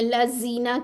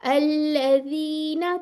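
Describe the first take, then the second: First: The middle consonant is a hissing z sound. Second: The middle consonant is soft, with tongue forward. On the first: The speaker calls it wrong. "उसके अंदर सीटी ले आते हैं" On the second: The speaker calls it right. "थोड़ी सी जबान की टिप आगे लें"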